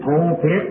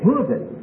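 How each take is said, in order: First: The first syllable sounds like 'pole'. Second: The first syllable sounds like 'pull'. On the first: The speaker calls it wrong. "it isn't pole pit" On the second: The speaker calls it right. "that is pulpit"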